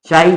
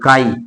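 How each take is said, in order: First: The word begins with a ch sound. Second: The word begins with a k sound. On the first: "चाई बोल दो" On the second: "real में इसको बोला जाता है काई"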